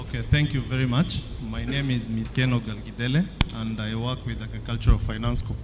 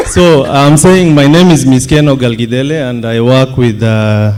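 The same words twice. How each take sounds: First: Hoarse, faint voice after a night of celebrating; barely-there hoarse voice; lost voice. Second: Repeating it louder into the mic; louder, clearer restatement. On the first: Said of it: "I lost my voice last night". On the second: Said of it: "This is better". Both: Real, not acted.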